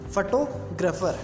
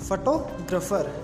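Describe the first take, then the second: No difference in how they are said.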